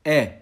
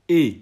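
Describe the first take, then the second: First: "E" as the è in père; open E. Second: "E" as the é in école; closed E. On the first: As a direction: say "E" firmly with an open è sound. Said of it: "comme dans père". (« E » ouvert, comme dans père) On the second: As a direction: say "E" firmly with a closed é sound. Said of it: "c'est comme dans école". (« E » fermé, comme dans école) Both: Shown as a demonstration.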